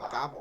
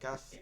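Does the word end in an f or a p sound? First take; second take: p; f. First: The word ends in a p sound. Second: The word ends in an f sound. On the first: The speaker calls it wrong. "আপনারা তো পা বলেন হয় নাকি, কাপ বলতেছেন কেন?" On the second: The speaker calls it right. "কাফ শেষে ফা আছে।"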